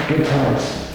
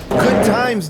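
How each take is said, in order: First: Said in the usual way. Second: Higher and louder mock cheer; mocking echo. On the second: Streamer mocking Mark's line, loud and high. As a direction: throw the line back with sarcastic glee.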